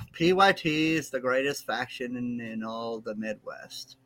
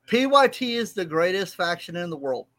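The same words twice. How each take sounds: First: Slow reluctant recital, trailing down; insincere, dragging forced praise; grudging, not meant. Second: Louder forced declaration, still grudging; reluctant praise, punched louder at the start; trying to mean it. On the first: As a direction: drag it out as if forced to say it. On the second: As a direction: push out the praise with more force. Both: Real, not acted. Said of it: "Say it like you mean it".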